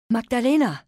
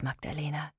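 First: Desperate loud cry; calling out. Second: Soft tender whisper of her name. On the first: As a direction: shout the child's name. Mother calls child in chaos. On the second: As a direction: breathe the name softly. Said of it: "Und so flüsterte sie ihr ins Ohr". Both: Acted.

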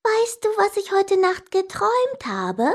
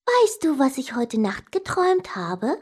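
First: High-pitched pestering sister; insistent repeated question. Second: Lightly voiced excited sister, high opening; sister asking. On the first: Sister asks unwilling brother once more, high and insistent. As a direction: pester him in a high voice, rising at the end. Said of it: "aber sie fragte schon wieder". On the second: Sister tells brother of a dream, eager question. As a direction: ask it teasingly, starting high. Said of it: "kam meine Schwester Clara zu mir und fragte". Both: A narrator's reading.

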